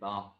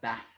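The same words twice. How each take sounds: First: The vowel is a long, open 'ah' sound. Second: The vowel is a short, flat 'a' sound. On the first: "I tend to say R's instead of as" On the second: "and not"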